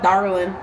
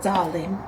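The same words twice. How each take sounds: First: It is said in a nasal Chicago accent. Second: It is said in a British-sounding accent. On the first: "not how I just darling with my freaking thick Chicago nasalness" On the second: "But when they're like"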